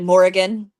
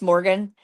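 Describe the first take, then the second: First: The name is said with three syllables. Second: The name is said with two syllables. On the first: The speaker calls it right. "it's actually Morrigan, and it's got like eh in it" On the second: The speaker calls it wrong. "people think it's just Morgan"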